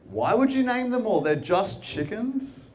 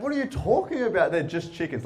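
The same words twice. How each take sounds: First: High-pitched disbelief, drawn-out ending; mock-incredulous, stretching the last words; incredulous questioning. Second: Mock-indignant disbelief, falling at the end; indignant retort. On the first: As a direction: act out baffled dismissal, rising at the end. Acts out his incredulous question to her. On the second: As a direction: imitate someone offended, quoting words back. Woman retorts, quoting his words back.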